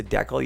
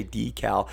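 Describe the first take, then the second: First: Decal said as DECK-ul; Canadian DECK-ul. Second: Decal said as DEE-cal; long ee in decal, DEE-cal; guest's DEE-cal. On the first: Shown as a demonstration. Explaining the sticker word to his guest, decal as DECK-ul. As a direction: say decal with a short first e, DECK-ul. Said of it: "we say decal". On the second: Retold or imitated. Quoting his guest's way back to them, decal as DEE-cal. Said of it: "You say decal".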